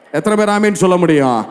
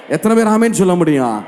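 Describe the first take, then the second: No difference in how they are said.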